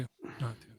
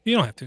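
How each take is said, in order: First: "You don't have to" said again, much softer and trailing off; much softer repeat. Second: Said in the usual way. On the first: Real, not acted. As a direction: let the repeat fade away, much softer. Repeats the reassurance twice.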